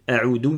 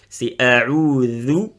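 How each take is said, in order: First: The middle consonant sounds like z or d. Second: The middle consonant is a soft th sound. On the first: The speaker calls it wrong. "il y en a beaucoup qui le prononcent za, comme le z en français, ou comme le dal" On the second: The speaker calls it right.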